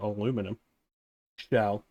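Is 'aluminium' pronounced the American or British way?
American. The word is said the American way.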